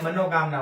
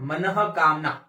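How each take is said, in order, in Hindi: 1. पहला भाग 'mano' की तरह बोला जाता है। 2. पहला भाग 'manah' की तरह बोला जाता है। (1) "हम क्या बोलते हैं, मनोकामना ... गलत है" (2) "शुद्ध सही शब्द क्या होगा"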